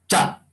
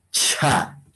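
First: Said in the usual way. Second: "cha" with an airy puff after the ch; aspirated ch. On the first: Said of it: "esto es". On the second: Shown as a demonstration. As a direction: let breath rush out between ch and a in "cha". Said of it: "Vamos a un poquito aspirar".

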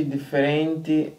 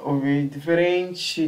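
First: Diferente slowly with a plain final t, difeˈrenti; Mozambican pronunciation. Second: Diferente slowly with a final tch, difeˈrentchi; imitating Brazilian. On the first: Shown as a demonstration. Mozambican host giving his own diferente, plain final t. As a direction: say diferente your own way, slow, clean t. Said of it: "Nossa língua". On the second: Mozambican host mimicking the Brazilian diferente, final tchi. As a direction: copy the Brazilian diferente, slow, ending in tchi.

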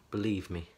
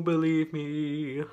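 First: Said in the usual way. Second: Drawn-out, slow and theatrical; dramatic slow voice. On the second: Pretend. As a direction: stretch it out like a ham actor. Plain then dramatic repeat.

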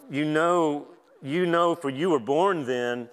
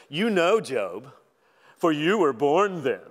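First: Said in the usual way. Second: Slow, louder mocking drawl on "for you were born then"; preacher voicing God's sarcasm at Job; sarcastic God. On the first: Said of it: "I'm not saying God said it like this". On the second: Shown as a demonstration. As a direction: lay the sarcasm on thick, teasing Job. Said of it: "if you ever wondered if God was sarcastic".

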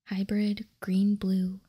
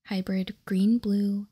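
The two takes are said the same way.

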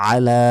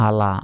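First: Tajweed আলা from the throat; throat ayn. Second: Said in the usual way. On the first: Shown as a demonstration. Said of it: "আইনের উচ্চারণ করতে হবে". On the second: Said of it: "আলা নয়".

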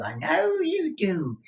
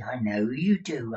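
First: High, slow knowing repeat; teasing old miser. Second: Said in the usual way. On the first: Acted. Miser teasing Newman, high and slow. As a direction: tease him, pitch jumping up.

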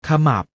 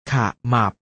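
First: Said in the usual way. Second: ขะ, short pause, หมับ; syllable by syllable. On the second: Shown as a demonstration. Teacher showing pupils the reading, ขะ-หมับ in separated syllables. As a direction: split ขะหมับ into two separate syllables. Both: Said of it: "อ่านว่า".

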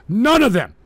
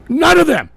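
First: Said in the usual way. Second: Louder and higher second time; loud emphatic repeat. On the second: Real, not acted. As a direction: hammer it home, louder.

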